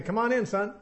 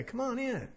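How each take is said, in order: First: Simple request. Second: Gentle coaxing. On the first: Shown as a demonstration. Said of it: "just say". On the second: Acted. Father coaxing son to come in.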